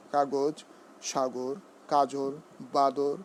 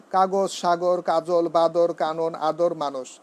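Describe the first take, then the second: First: কাগজ, সাগর, কাজল one by one with a closed o; correct pronunciation. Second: কাগজ, সাগর, কাজল rattled off loudly with open final vowels; wrong pronunciation. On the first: Teacher correcting the word list for students, correct pronunciation. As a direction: say কাগজ, সাগর, কাজল separately, rounding the second vowel. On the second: Teacher showing students how not to say it, wrong pronunciation. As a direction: run কাগজ, সাগর, কাজল together with flattened second syllables. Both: Shown as a demonstration. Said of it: "এভাবে নয়".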